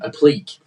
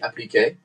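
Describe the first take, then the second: First: The word is pronounced in an English manner. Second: The word is pronounced in a French manner. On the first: "it just became Applique" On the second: "if you were French, it would be appliqué"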